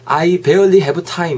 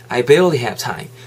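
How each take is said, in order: First: Every word gets roughly equal, even stress. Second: Barely is stressed and have time is linked. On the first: The speaker calls it wrong. "이렇게 정직하게 발음하지 마시고" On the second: The speaker calls it right. "barely에 좀 더 강세를 넣으세요"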